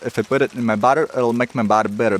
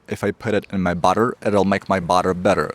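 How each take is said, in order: First: It is said at a faster pace. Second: It is said at a slower pace.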